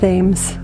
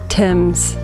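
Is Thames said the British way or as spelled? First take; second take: as spelled; British way. First: It is said the way the spelling looks. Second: It is said the way British speakers say it. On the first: "Americans, it looks like Thames" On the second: "Apparently the British say Thames"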